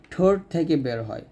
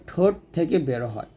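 The two takes are said the same way.

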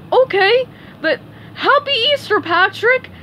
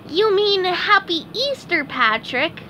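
First: High, loud cartoon parroting; Patrick repeating. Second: High cartoon voice, correcting a friend; SpongeBob correcting. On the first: Patrick repeats SpongeBob's greeting word for word, parroting. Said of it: "repeated Patrick". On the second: SpongeBob corrects his friend Patrick's greeting, correcting. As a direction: lightly correct him in a high-pitched voice. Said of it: "correcting him". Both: A narrator's reading.

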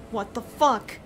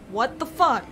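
Both takes have the same delivery.

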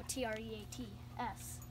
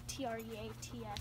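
First: Spelling the word letter by letter; T R E A T S spelled out letter by letter. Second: Spelling T R E A T S again letter by letter; T R E A T S spelled letter by letter. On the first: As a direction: spell it so the dog won't catch on. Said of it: "He knows what a T R E A T S is". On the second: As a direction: spell treats so the dog can't tell. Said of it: "You know, T R E A T S". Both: Shown as a demonstration.

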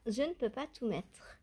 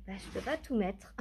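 First: "ne" said fully and leaned on; "je ne peux pas" said carefully, every word kept; careful restatement. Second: Said in the usual way. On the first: Shown as a demonstration. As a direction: spell it out, landing on "ne". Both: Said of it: "Concrètement".

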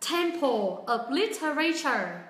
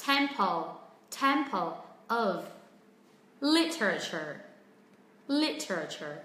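First: "tem-PO op li-te-RAY-cher" for Temple of Literature; mispronounced Temple of Literature, each syllable full; common learner error. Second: TEM-pul of LIT-ruh-cher for Temple of Literature; word by word, stress TEM in Temple and LIT in Literature; careful Temple of Literature, falling from each first syllable; corrected pronunciation. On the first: Retold or imitated. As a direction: imitate learners, slowly stressing RAY in Literature. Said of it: "rất nhiều bạn nói là". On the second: Shown as a demonstration. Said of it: "chúng mình hãy sửa đấy nhá".

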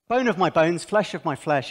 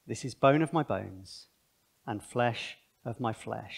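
First: Said in the usual way. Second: Soft, slow, tender reading of "bone of my bones"; solemn scripture reading. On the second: Acted. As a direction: linger on each word with awe. Reading Adam's words solemnly.

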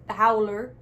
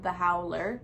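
First: Louder, hammed-up Canadian accent. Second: Said in the usual way. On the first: Shown as a demonstration. Comic repeats the contest name for listeners, Canadian accent. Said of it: "say it in my Canadian accent". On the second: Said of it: "Let me say it in my Canadian accent".

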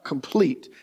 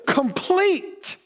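First: Complete said low and soft; lower complete. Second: Complete lifted high and held; stressed complete. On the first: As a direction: drop complete down, hushed. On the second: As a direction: ring out complete high with a falling finish. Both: Shown as a demonstration. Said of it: "I cannot emphasize that word there enough".

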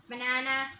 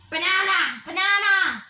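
First: Said in the usual way. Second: Loud calls. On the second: Pretend.

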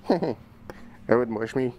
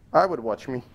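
First: Slow, laughing through the words. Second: Said in the usual way. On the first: Real, not acted. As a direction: giggle it out slowly. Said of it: "repeats laughing". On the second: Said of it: "repeats line".

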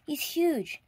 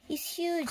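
First: Farmer's line. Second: Wife's line. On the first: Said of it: "thought the farmer". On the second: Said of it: "said his wife". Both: A narrator's reading.

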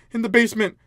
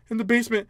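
Both takes have the same delivery.

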